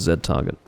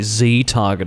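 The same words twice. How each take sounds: First: The letter Z is said the non-American way. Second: The letter Z is said the American way.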